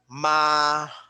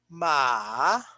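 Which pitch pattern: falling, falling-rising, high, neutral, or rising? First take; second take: high; falling-rising. First: The pitch stays high and level. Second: The pitch dips low then rises. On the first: It means mother. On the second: It means horse. "that means horse"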